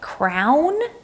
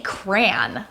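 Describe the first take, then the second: First: It is said as one syllable, like crown. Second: It is said as one syllable, like cran. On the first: "almost like crown" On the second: "I say cran, like cranberry"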